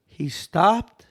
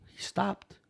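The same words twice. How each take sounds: First: STOPPED said firmly, at full voice; emphatic repeat. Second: Soft, held-back storytelling; hushed suspense. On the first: Storyteller repeats that he stopped, stressing STOPPED in amazement. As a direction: land firmly on "stopped", lifting at the end. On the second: Storyteller reveals the passing figure's halt, hushed. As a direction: drop it softly for suspense. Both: Real, not acted.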